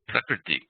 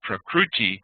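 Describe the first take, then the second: First: The middle syllable sounds like 'kri'. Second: The middle syllable sounds like 'kroo'. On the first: The speaker calls it right. "instead of Prakriti" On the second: The speaker calls it wrong. "a mispronunciation like Prakruti"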